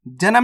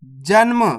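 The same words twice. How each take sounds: First: जन्म opened up as "ja-nam"; wrong full-letter reading. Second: जन्म as "janm"; correct half-letter reading. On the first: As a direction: put a vowel after n in जन्म. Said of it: "नहीं पढ़ना". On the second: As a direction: run n straight into m in जन्म. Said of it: "जन्म नहीं पढ़ना". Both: Shown as a demonstration.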